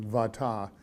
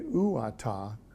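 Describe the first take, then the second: First: The word begins with a v sound. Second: The word begins with an oo sound. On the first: The speaker calls it right. "uata is harder to say than vata. So it's a V sound there" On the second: The speaker calls it wrong. "So I could say uata"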